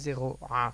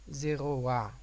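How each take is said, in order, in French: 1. Le a final est séparé, sans glissement w. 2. Le a final glisse avec un son w. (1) "Pas zéro a" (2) "Le a, il est prononcé avant la lettre"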